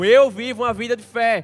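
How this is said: It is said with strong, forceful conviction.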